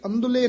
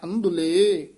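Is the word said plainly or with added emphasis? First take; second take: plain; emphasized. First: The word is said plainly without added emphasis. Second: The word is said with added yamak emphasis. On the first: The speaker calls it wrong. "ਇਹ ਵੀ ਅੰਧੁਲੇ ਨਾਮ ਨਹੀਂ ਕਹਿਣਾ ਹੈ" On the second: The speaker calls it right. "ਅੰਧੁਲੇ ਪਦ ਤੇ ਯਮਕ ਲਾ ਦੇਣੀ ਹੈ"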